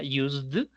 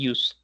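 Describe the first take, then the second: First: The word ends with a clear d sound. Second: The word ends without a clear d sound. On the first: The speaker calls it wrong. "la terminación en d de dedo" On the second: The speaker calls it right. "la pronunciación sería used"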